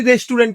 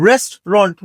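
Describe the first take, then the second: First: "রেস্টুরেন্ট" as res-tu-rent; three-syllable "রেস্টুরেন্ট", ending in "rent"; common mispronunciation. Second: "রেস্টুরেন্ট" as two parts, rest-ront; "রেস্টুরেন্ট" with no "oo", ending in "ront"; correct pronunciation. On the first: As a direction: say "রেস্টুরেন্ট" with an "oo" in the middle. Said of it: "এটা রেস্টুরেন্ট না". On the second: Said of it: "এটার সঠিক উচ্চারণ". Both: Shown as a demonstration.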